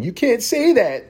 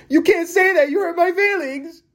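First: High, slow whiny voice; mock offended. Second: Very high, near-crying whine; mock crybaby. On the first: Vlogger mocking the ableist community, high and whiny. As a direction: whine it like an offended scold. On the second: Vlogger mocking offended people, high fake crying whine. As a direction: wail it like a hurt crybaby. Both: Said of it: "community that's saying".

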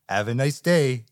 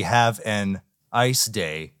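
First: Said in the usual way. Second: Slow, clearly separated "Have an ice day" with the n kept on "an"; intended pun line. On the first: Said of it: "but he just says". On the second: Retold or imitated. Podcaster showing how the freeze pun should sound, slow and clear. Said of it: "I think the line is supposed to be".

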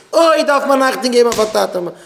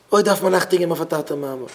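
First: Loud, high preaching cry; raised-voice rebuke, pitched high; shouted admonishment. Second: Said in the usual way. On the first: Real, not acted. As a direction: cry out the warning to the crowd. Repeats the warning, now shouting.

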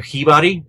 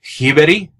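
First: Hibari with an open "ah" in the middle; second pronunciation attempt. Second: Hiberi with an "eh" in the middle, rising; attempted Swedish name. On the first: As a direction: try Hibari as "hee-BAH-ree", a tentative guess. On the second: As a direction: try Hiberi as "hee-BEH-tee", tentatively lifted at the end. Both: Shown as a demonstration. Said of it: "his last name is pronounced".

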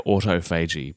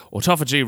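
First: Autophagy said as auto-FAY-jee; autophagy with a long "fay"; alternative pronunciation. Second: Said in the usual way. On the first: Shown as a demonstration. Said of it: "there's a very big enunciation debate". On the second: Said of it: "rolls off the tongue for me".

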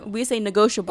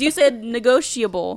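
First: "negotiable" as ne-GO-shuh-bul; pronounced without the I. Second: "negotiable" with an audible ee, ne-GO-shee-uh-bul; imitating the I pronunciation. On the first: Shown as a demonstration. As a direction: drop the ee from "negotiable". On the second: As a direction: quote it back with the I in "negotiable".

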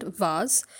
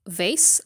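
First: Vase said slowly as "vahz"; British VASE. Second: Vase said slowly as "vayss"; American VASE. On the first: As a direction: stretch vase with an AH and a Z. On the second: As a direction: stretch vase to rhyme with base. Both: Shown as a demonstration. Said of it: "you will hear both".

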